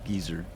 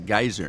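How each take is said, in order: First: It is said the English way, like geezer. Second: It is said the American way, like guy-zer.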